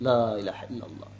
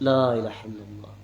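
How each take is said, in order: The two takes are said the same way.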